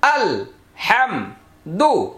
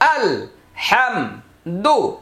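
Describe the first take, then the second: No difference in how they are said.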